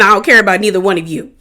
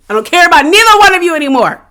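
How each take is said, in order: First: Said in the usual way. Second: High, fast, heated dismissal; fed-up outburst. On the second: Real, not acted. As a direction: blurt it out, completely fed up. Repeats dismissal, escalating.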